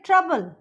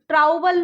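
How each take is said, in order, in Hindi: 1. पहला स्वर uh जैसा बोला जाता है। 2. पहला स्वर ow जैसा बोला जाता है। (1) "हम बोलेंगे ट्रबल" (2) "ट्राउबल नहीं बोलेंगे इसको"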